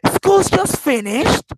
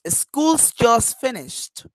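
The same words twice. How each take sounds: First: It is said in a surprised tone. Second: It is said in a plain, neutral tone. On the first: The news is unexpected. "it means that I am surprised about this news" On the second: It simply states a fact. "I am just saying correctly"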